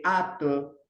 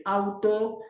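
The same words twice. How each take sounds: First: "ato" said slowly, the u dropped; child's mispronunciation. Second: Said in the usual way. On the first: Shown as a demonstration. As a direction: stretch "ato" like a toddler's version of auto. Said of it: "dice ato". (pronunciación infantil, lenta: "ato" en vez de "auto") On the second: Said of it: "en vez de decir auto".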